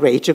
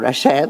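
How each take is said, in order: First: The name is said with an English pronunciation. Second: The name is said with a French pronunciation. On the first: "poi però va in America, quindi lì diventa Rachel" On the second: "lei vive in Francia e quindi lì sarà stato Rachel"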